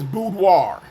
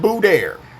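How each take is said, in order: First: The word ends with a 'dwar' sound. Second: The word ends with a 'dare' sound. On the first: The speaker calls it right. "the word is boudoir" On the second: The speaker calls it wrong. "not boudoir"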